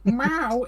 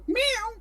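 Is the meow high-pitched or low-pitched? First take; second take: low-pitched; high-pitched. First: The meow is said at a low pitch. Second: The meow is said at a high pitch.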